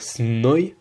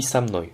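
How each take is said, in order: First: "snoi" with the consonants run straight together; "snoi" as one hard cluster at the start; no linking vowel. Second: "samnoi" with an a after the s; "samnoi", eased open with an a sound; added linking vowel. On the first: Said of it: "du coup on dit samnoi". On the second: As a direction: say "samnoi" as one word, vowel inserted after the s. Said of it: "pour des facilités de prononciation". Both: Shown as a demonstration.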